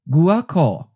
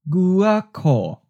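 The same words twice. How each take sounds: First: The word is said at normal conversational speed. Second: The word is said slowly and deliberately. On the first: "First natural speed" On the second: "and then slowly"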